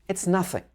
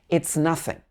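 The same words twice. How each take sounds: No difference in how they are said.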